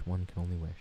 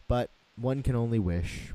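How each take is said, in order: First: Softer, lower put-on repeat of One can only wish; hushed mock-grand echo; mock posh echo. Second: Said in the usual way. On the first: Shown as a demonstration.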